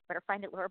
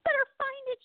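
First: Low, hushed teasing voice; quiet teasing. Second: Much higher, playful mocking sing-song; sing-song taunt. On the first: Retold or imitated. Co-host's laughter teasing Laura to find her lost thought, quiet taunt. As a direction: murmur it as a sly little dig. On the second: Co-host's laughter mocking Laura for losing her train of thought, high sing-song taunt. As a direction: tease her like a kid on the playground. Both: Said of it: "That laughter was like".

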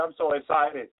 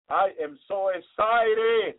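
First: Said in the usual way. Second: Emphatic excitement. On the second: Real, not acted. Preacher telling congregation his joy, slow and emphatic. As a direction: stretch every word with joy.

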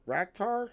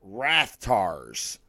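First: Raktar with a hard k in the middle, as a rising question; mistaken pronunciation. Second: Rathtars with a th in the middle, falling and sure; corrected pronunciation. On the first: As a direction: try out "Raktar" softly, voice lifting in doubt. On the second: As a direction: land "Rathtars" low, with th before the t. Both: Real, not acted. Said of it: "That's what they're called".

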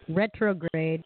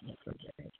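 First: Said in the usual way. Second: Whispered retrograde, voice gone. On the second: Shown as a demonstration. Repeating the word, fading out.

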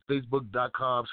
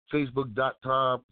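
The two takes are said the same way.

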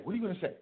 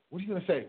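First: "you" hit, high and pointed; stress on you. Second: "say" leaned on, high and pointed; stress on say. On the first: Pushing the other man to answer, stress on "you". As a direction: lean into "you". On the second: Pushing the other man to answer, stress on "say". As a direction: press hard on "say". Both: Shown as a demonstration. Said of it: "repeats question three ways".

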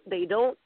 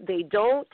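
Both takes have the same delivery.

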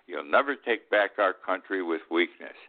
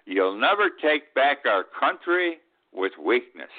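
First: Said in the usual way. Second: Slow, emphatic "never", a touch higher; quoting Trump, stress on never. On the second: Retold or imitated. Old man reading Trump's rally line with weight on "never". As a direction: lean on "never" like a rally speech. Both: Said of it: "And he also said".

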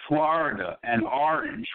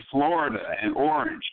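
First: "Florida" with an open "ah" first vowel, FLAH-rida, and "orange" as AH-range; New York way: "Florida and orange" with a broad ah sound; East Coast pronunciation. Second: "Florida" with a rounded "or" first vowel, FLOR-ida, and "orange" as OR-ange; Midwest pronunciation. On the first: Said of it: "in the East Coast, I'll say". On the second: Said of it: "in the Midwest they say". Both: Shown as a demonstration.

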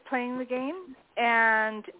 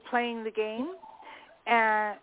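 Both takes have the same delivery.

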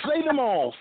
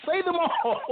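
First: Said in the usual way. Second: "Say them all" repeated much higher and sing-song; higher playful urging. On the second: Real, not acted. Host repeats the request to the poet higher, teasing and eager. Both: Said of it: "laughs Okay".

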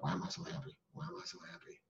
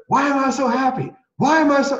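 First: Without inflection. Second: Loud, high-pitched happy declaration. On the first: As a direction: say it half-heartedly, barely audible. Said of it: "I say it without much inflection in my voice". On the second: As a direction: belt it out high and full of inflection. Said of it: "Say it out loud". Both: Retold or imitated.

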